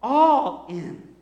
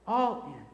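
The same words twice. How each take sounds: First: Louder, ringing out the words All in; a bold declaration of All in; emphatic call. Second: Said in the usual way. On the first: Shown as a demonstration. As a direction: proclaim All in with force. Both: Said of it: "am I in or not?".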